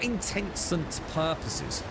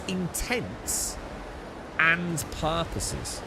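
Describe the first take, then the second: First: The word 'and' is merged into one blurred word. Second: The word 'and' is clearly heard as separate. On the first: The speaker calls it wrong. "Not intentant purposes" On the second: The speaker calls it right. "It's intense and purposes"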